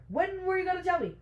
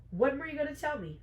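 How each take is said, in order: First: Much higher, fast accusing question; exasperated, high-pitched acted demand; escalating indignation. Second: High, fast accusing question; acted indignant confrontation; indignant demand. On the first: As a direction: push the demand right up in pitch. Repeats the confrontation, escalating. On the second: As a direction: demand an answer, voice pitched up. Betrayed heroine confronts her mate.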